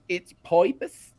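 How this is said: The vowel in purpose sounds like 'oi'.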